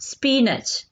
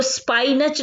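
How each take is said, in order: First: स्पिनच with an "ee" sound, SPEE-nach; correct pronunciation. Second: स्पाइनच with "spy" at the start; mispronounced SPY-nach for स्पाइनच; wrong pronunciation. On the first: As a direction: say स्पिनच without any "spy" sound. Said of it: "इसकी pronunciation क्या होगी?". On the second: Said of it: "इसको स्पाइनच नहीं बोलना". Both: Shown as a demonstration.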